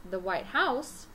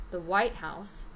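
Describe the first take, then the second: First: "House" made longer and stronger than "White"; stress on HOUSE. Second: "White" hit hard, "House" dropping after it; stress on WHITE. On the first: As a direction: put the emphasis on "House". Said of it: "I'm stressing the word house". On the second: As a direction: make "White" the strong word of "White House". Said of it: "we are stressing the word white". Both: Shown as a demonstration.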